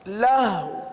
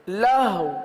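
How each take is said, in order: No difference in how they are said.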